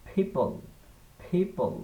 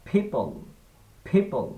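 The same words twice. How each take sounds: Both takes have the same delivery.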